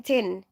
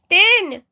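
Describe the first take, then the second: First: Said in the usual way. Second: "Tin" as friends shout it in the Philippines, Filipino accent; Filipino-accented "Tin!", pitched up and called out. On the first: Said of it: "not in that accent". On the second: Shown as a demonstration. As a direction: call out "Tin" high and loud in a Filipino accent. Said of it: "in, like, this accent".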